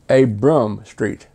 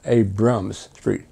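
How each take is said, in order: First: The name ends without an s sound. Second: The name ends with an s sound. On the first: The speaker calls it right. "which clearly said Abram Street" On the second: The speaker calls it wrong. "not Abrams Street. No S"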